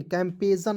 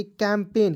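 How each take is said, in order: First: कैंपेजन with G sounded as J/Z; wrong pronunciation. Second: कैंपेन in two syllables, G silent; correct pronunciation. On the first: Teacher warning students off, misread कैंपेजन with sounded G. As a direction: misread it as कैंपेजन, an extra syllable. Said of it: "कैंपेजन नहीं पढ़ लीजिएगा". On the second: Teacher showing the right reading, silent-G कैंपेन. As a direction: end कैंपेन on "pain". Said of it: "तो क्या पढ़ेंगे?". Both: Shown as a demonstration.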